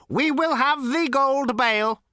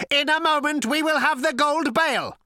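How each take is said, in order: First: High, slow robot voice, mildly patient. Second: High, loud robot declaration; cold, lifeless robot. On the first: Robot repeats itself to Zaphod, slow and patient. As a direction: spell it out slowly, like a patient machine. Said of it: "repeated the robot patiently". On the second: Robot announces its plan to Zaphod, coldly mechanical. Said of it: "cold, sleek, and lifeless". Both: A narrator's reading.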